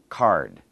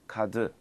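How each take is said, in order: First: The word is said with one syllable. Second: The word is said with two syllables. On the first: The speaker calls it right. "It's one syllable in English" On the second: The speaker calls it wrong. "In Korean, sometimes people make two"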